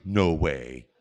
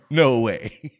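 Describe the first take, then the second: First: Mild chuckled no way; quoting a friend's laughing surprise; laughing disbelief. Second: Louder, laughing through it; retold friend cracking up in surprise; loud laughing disbelief. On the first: Retold or imitated. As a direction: say it through a small laugh. Old friend recognizes him, laughing. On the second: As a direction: burst out with it mid-laugh. Friend repeats it, laughing harder.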